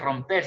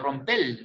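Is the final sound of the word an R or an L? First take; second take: R; L. First: The word ends with an R sound. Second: The word ends with an L sound, Caribbean-style.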